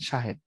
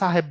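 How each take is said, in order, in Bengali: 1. প্রথম ব্যঞ্জনটি 'sh' ধ্বনি। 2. প্রথম ব্যঞ্জনটি 's' ধ্বনি। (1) "তখন বলেন সাহেব" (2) "তখন কিন্তু আর সাহেব বলেন না"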